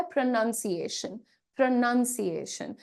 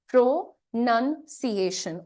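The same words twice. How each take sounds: First: "प्रोनंसिएशन" run together, first syllable reduced; quicker natural pronunciation. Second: "प्रोनंसिएशन" slowly, syllable by syllable, full "प्रो"; careful pronunciation. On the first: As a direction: say "प्रोनंसिएशन" in one go, short "prə". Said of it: "जब आप थोड़ा जल्दी से बोलते हैं". ("प्रोनंसिएशन" को जल्दी से, एक साथ बोलना) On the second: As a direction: break "प्रोनंसिएशन" into pro, nun, ci-ation. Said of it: "इस वर्ड का खुद का उच्चारण क्या है". ("प्रोनंसिएशन" का धीमा, टुकड़ों में साफ उच्चारण) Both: Shown as a demonstration.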